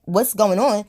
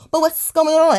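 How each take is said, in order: First: Said in the usual way. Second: High, louder whiny mock voice; taunting imitation of the girlfriend's question; mocking the goofy girl. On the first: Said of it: "And I'm like". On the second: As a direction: squeak it out like a clueless girl. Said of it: "one of them little goofy ass fucking girls".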